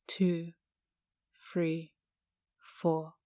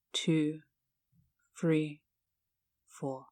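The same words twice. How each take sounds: The two takes are said the same way.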